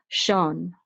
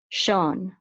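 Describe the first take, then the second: No difference in how they are said.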